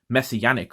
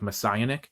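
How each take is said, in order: First: It does not sound like Messiah joined to ionic. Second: It sounds like Messiah joined to ionic. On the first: "in the anime, he calls it Messianic Lord Blaster" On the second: "Messiah and then Ionic, so it's like Messianic"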